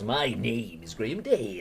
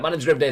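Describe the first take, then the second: First: It is said in a put-on presenter voice. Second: It is said in his ordinary speaking voice. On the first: "I don't need to talk like this" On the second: "so I'll just talk normally"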